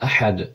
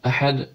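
First: The h is made deep in the throat. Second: The h is made deep in the throat.

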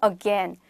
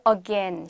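First: It is said with a clear stressed syllable. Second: It is said flat without a clear stress. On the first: The speaker calls it right. "강세가 들어가서" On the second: The speaker calls it wrong. "again 아니고"

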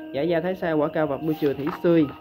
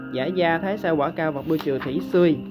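No difference in how they are said.

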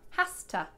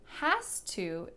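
First: The words are reduced and run together as 'hasta'. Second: The words are said fully as 'has to'. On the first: "when we reduce has" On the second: "Has to is going to become Hasta"

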